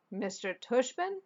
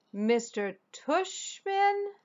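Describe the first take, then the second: First: Said in the usual way. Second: Much higher, very slow disbelieving repeat; incredulous repeat. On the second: Acted. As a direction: stretch the name out, higher, in disbelief. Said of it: "I repeated".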